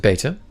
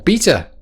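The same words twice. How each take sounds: First: It is said with a non-British pronunciation. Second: It is said with a British pronunciation.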